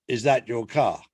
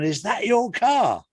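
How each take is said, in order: First: Lower, matter-of-fact official question; understated officious traffic warden, pitched low. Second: High, drawn-out amazed question; higher-pitched, incredulous admiration; impressed mate. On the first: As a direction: play the warden checking up on the driver. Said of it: "a traffic warden comes up to him". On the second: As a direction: marvel at your mate's car, slow and high. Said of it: "and his mate's gone". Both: Acted.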